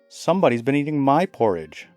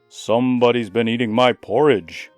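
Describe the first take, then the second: First: It is said less loudly, as Mother Bear. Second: It is said loudly, as Father Bear.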